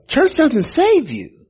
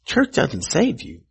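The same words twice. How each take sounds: First: High and slow, leaning on save; emphatic repeat. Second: Said in the usual way. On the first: Shown as a demonstration. Preacher drives it home to congregation, emphatic and slow. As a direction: lift and stretch the word "save" as a punchline. Repeated line, second far higher.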